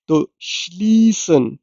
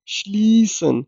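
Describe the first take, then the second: First: श्लीसन with a long ee, shlee-sen; श्लीसन, lambi ee ke saath; long ee sound. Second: श्लीसन softly, ee held long; quiet model of श्लीसन, shleeeh-sen; long ee sound. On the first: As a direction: stretch the ee in श्लीसन. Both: Shown as a demonstration. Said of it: "लंबी ई की आवाज pronounce करनी है".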